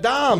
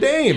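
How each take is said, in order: First: The vowel sounds like the English 'dom'. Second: The vowel sounds like the English 'day'. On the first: The speaker calls it right. "and not Dom" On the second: The speaker calls it wrong. "they don't even pronounce it right. They call it Notre Dame"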